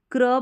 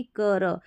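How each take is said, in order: First: क्र with half k blended into r; क्र tight, no vowel between k and r; cluster kra. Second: कर with a full a after k; कर spoken open as kar, not kra; split kar. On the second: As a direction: say कर as two sounds, ka then r. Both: Shown as a demonstration. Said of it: "न कि कर".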